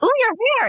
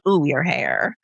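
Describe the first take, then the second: First: It sounds admiring and pleased. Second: It sounds disapproving and judgmental.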